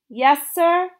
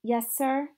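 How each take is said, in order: First: "Yes, sir?" repeated louder and higher. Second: Said in the usual way. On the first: A narrator's reading. Girl answers the preacher again, louder and higher. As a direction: raise the voice so he hears. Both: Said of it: "I said louder".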